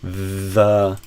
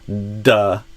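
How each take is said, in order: First: It starts with a soft 'th' sound. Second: It starts with a hard 'd' sound. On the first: "the T H E" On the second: "I just put a d, d, a d, d, a D sound in front"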